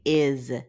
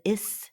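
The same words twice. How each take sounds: First: The word ends with a buzzing Z sound. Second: The word ends with a hissing S sound. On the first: The speaker calls it right. "No, we say is" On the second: The speaker calls it wrong. "We don't usually says is"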